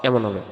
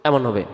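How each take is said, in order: Both takes have the same delivery.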